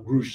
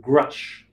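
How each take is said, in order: First: The name is pronounced the German way. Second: The name is pronounced the English way.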